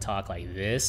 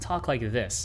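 First: The voice is deep and low-pitched. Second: The voice is raised to a higher pitch. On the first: It makes listeners fall asleep. The speaker calls it wrong. "like a deep baritone talk like this all day" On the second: It keeps listeners engaged during a presentation. The speaker calls it right. "raise your voice like this and talk like this in an upper register"

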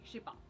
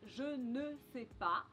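First: The phrase is shortened, ne is dropped. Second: The phrase is said in full, with ne. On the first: "us Frenchies often say" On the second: "Instead of saying, je ne sais pas"

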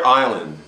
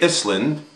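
First: The word is said without an S sound. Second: The word is said with an S sound. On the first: The speaker calls it right. "we don't pronounce it" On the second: The speaker calls it wrong. "We don't say Island"

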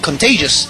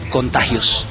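First: The name is pronounced the English way. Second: The name is pronounced the Spanish way. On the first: This is the original English band name. "El nombre originalmente fue en inglés" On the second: This is how Spanish-speaking fans may say it. "la gente puede decir Contagious"

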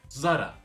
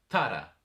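First: The name begins with a z sound. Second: The name begins with a t-like sound. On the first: The speaker calls it wrong. "Zara değil mi?" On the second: The speaker calls it right. "Bir İspanyol markası olduğu için Z'leri T ile"

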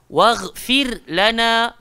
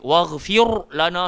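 First: The r sound is thin and light. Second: The r sound is thick and rounded. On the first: The speaker calls it right. "Dia kena nipih" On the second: The speaker calls it wrong. "salah terus"

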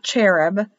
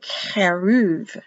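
First: The word ends with a B sound. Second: The word ends with a V sound. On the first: The speaker calls it wrong. "not cherub" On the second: The speaker calls it right. "but keruv"

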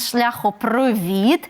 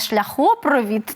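First: The stress falls on the last syllable. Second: The stress falls on the connecting O. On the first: The speaker calls it right. "а він" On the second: The speaker calls it wrong. "Він не"

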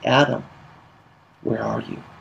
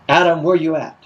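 First: It sounds heartbroken and pleading. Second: It sounds harsh and condemning.

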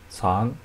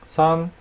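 First: The pitch rises from mid to high. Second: The pitch stays high and level.

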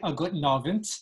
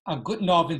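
First: The words are said separately, not run together. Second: The words are slurred together into one. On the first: "standard Yiddish, you could say a guten Abend, but it would be two words" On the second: "slurring the whole thing together. A guten Abend as one single word"

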